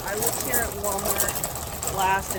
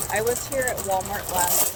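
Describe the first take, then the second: First: On a bumpy road. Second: Said in the usual way. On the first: Real, not acted. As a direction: voice jostled while walking. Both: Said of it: "sorry for the shaking".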